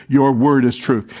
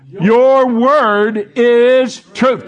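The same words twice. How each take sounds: First: Said in the usual way. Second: Very slow, loud, drawn-out proclamation; boomed scripture. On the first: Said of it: "First part of that verse says". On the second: Shown as a demonstration. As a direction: boom the verse out. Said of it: "boom it out".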